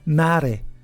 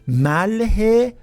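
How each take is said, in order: First: The h is dropped and r takes over. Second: The word ends with an h-like sound. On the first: The speaker calls it right. "میشه مره" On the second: The speaker calls it wrong. "ولی بچه ها ملح نمیخونن"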